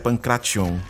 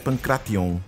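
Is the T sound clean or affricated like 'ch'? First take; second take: affricated; clean. First: The T is affricated, sounding like ch. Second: The T is a clean, crisp stop. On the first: The speaker calls it wrong. "Eu costumo sujar muito o T ao falar" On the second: The speaker calls it right. "o T é limpo no original"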